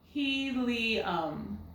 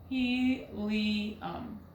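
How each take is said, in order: First: The middle vowel is an ee sound. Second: The same.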